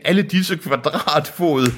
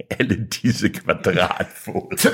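First: High, slow awe; theatrical high marvelling; acted amazement. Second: Very slow, drawn-out deadpan reading; slow, dragged-out mock awe; mock repeat. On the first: A narrator's reading. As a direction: draw it out in high-pitched wonder. Deacon marvels at the land. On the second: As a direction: repeat it slowly in your usual pitch. Reader repeats the line mockingly.

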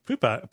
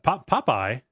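First: First syllable of "Popeye" rhymes with loop; "Poopeye" pronunciation. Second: First syllable of "Popeye" rhymes with top; "Popeye" with an ah, questioning it; usual "Popeye" pronunciation. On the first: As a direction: say "Popeye" as POOP-eye. Checking the odd name he heard. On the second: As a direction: say "Popeye" as POP-eye. Corrects toward the familiar name. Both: Real, not acted.

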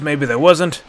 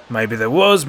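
First: Louder, rising sneer on wasn't; mock him with wasn't. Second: Sneering guard, falling tone. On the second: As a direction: toss it off with a sneer. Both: A narrator's reading. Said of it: "the other guard sneered".

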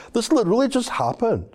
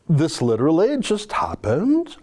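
First: Mocking, much higher take on "literally"; Miles McInnes voice. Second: Said in the usual way. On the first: Shown as a demonstration. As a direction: read it as a whiny activist. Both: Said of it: "I'm gonna read it in my Miles McInnes voice".

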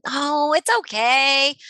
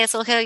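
First: Slow, higher, brushing-off oh it's okay; dismissive brush-off. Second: Put-on gentle, accepting it's okay to a child; reassuring. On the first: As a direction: wave the feeling away. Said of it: "We're not telling them that". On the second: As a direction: accept the feeling kindly. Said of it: "So I might say". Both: Shown as a demonstration.

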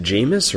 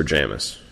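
First: "Jamis" said as JAY-miss; long "ay" in the first syllable of "Jamis"; long-a pronunciation. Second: "Jamis" said as JAM-iss; short "a" as in jam in "Jamis"; short-a pronunciation. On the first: Host asking guest how the name is said, "Jamis" as JAY-miss. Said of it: "is it Jamis or Jamis". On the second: Host offering guest the other option, "Jamis" as JAM-iss. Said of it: "I had always pronounced it that way". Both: Shown as a demonstration.

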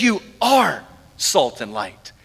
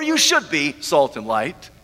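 First: Slow, with a weighty "are" and a falling end; "are" drawn out as a settled fact; stress on ARE. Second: "should" stressed, line left hanging. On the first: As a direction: land firmly on "are", then drop low. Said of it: "But he says". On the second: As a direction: lower voice, "should" leaned on, rising at the end. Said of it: "he doesn't say". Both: Shown as a demonstration.

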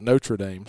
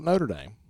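First: "Notre Dame" said as Notra Dame, R before the vowel; alternative pronunciation. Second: "Notre Dame" said as Noter Dame, like "voter"; alternative pronunciation. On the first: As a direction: say "Notre Dame" as NOH-truh daym. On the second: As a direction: say "Notre Dame" as NOH-ter daym. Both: Shown as a demonstration. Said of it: "Some people call it".

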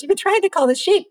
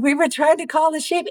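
First: High, fast incredulous echo; amused rancher. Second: Said in the usual way. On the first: Retold or imitated. The rancher to the tourists, high amused disbelief. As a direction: repeat it back in amused disbelief. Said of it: "And he goes". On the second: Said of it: "And I said".

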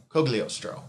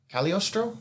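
First: "Cogliostro" with a "Coh" start, falling like a statement; settled pronunciation. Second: "Cagliostro" with a "Cal" start, higher, as a question; unsure pronunciation. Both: Real, not acted. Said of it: "that's why I get confused".

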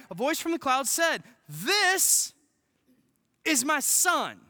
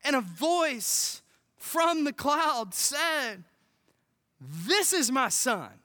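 First: Emphatic preaching. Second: Solemn scripture reading. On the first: Repeating the verse with force. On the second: Reading God's words from scripture. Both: Acted.

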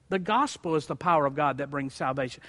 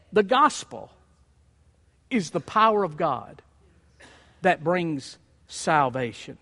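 First: Said in the usual way. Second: Each phrase set apart by long pauses; slow, weighty reading. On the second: Shown as a demonstration. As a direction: lay down gospel, power and salvation slowly, one by one.

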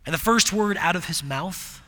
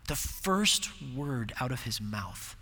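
First: Said in the usual way. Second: Hushed repeat. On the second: Real, not acted.

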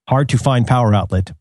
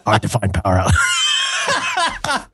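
First: Said in the usual way. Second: High, slow hammed-up raspy voice; Selma voice. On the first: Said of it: "reading these as Rorschach". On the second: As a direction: stretch it out in a comic old voice. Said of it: "Now I sound like Selma".

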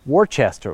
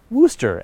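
First: Worcester said as WOR-chester; spelling pronunciation. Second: Worcester said as WOO-ster, two syllables; learned pronunciation. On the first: Host recalling an argument over a town name, spelling pronunciation. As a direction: sound out Worcester as written, with "chester" at the end. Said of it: "arguing about how to pronounce". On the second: Host giving the pronunciation he learned, two-syllable WOO-ster. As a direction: say Worcester short, as "wooster". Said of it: "as I learned". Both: Shown as a demonstration.

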